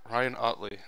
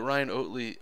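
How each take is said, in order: First: The surname's first vowel sounds like 'ot'. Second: The surname's first vowel sounds like 'oat'. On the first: The speaker calls it right. "Sounds better" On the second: The speaker calls it wrong. "is my am I saying it wrong?"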